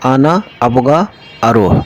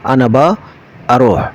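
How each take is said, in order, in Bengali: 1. তিনটি শব্দই পুরোপুরি বলা হয়। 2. প্রথম দুটি শব্দ মিশে একটি সংক্ষিপ্ত শব্দ হয়ে যায়। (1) "যেমনটি বলা যায় আমি যেতে চাই" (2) "আরো সংক্ষেপে বলা হয়"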